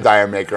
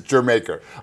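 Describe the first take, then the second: First: It sounds like the words 'dire maker'. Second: It sounds like the word 'Jamaica'. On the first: The speaker calls it wrong. "everybody says Dire Maker" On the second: The speaker calls it right. "but it's Jamaica"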